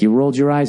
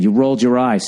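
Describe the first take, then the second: First: The words are said in a calm tone. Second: The words are said in an angry tone. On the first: The listener can hear the hurt without feeling attacked. The speaker calls it right. "so she can actually hear you and she won't be on the defensive" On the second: The listener will feel attacked and get defensive. The speaker calls it wrong. "don't say it the way I just said. ... See, I get the anger"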